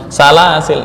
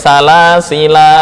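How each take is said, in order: First: The word ends on the l sound, no vowel. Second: The word ends with a long final vowel. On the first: This follows the majority of scholars. "dibaca dengan membuang alif" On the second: This follows only some scholars. "ketika waqaf dibaca panjang"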